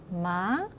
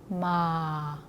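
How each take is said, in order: First: The pitch rises lightly at the end. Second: The pitch falls gently to a low end. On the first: "가볍게 끝을 올려서 읽어주시면 되겠습니다" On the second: "부드럽게 끝까지 내려서 읽어주시면 돼요"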